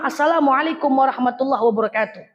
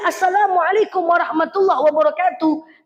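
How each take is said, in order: First: The greeting is said at a lower, normal pitch. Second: The greeting is said at a slightly raised pitch. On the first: This is the first greeting at the door. "Intonasi yang pertama" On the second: The host did not hear the first greeting. "naikkan sedikit intonasi"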